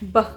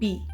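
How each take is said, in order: First: It is said as a short consonant sound. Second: It is said as the letter's name. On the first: The speaker calls it right. "the sound of the letter" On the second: The speaker calls it wrong. "not the letter itself"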